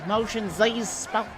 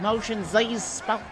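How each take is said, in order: First: It is said in a put-on German accent. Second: It is said in a put-on German accent.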